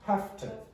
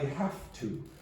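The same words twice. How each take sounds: First: The words are reduced and run together weakly. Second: Both words are said fully, without reduction. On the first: "Make this sound weak" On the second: "You would say, I have to"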